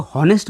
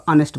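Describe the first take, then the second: First: हॉनेस्ट said with a spoken h at the start; wrong pronunciation. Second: ऑनेस्ट said with no h, starting straight on the vowel; silent h. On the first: Teacher showing students the wrong हॉनेस्ट with h. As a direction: voice the h in हॉनेस्ट, the mistake to avoid. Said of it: "इसको हॉनेस्ट मत, अ, pronounce कीजिएगा". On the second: Teacher giving students the correct ऑनेस्ट without h. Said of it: "इसको ऑनेस्ट बोलना है". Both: Shown as a demonstration.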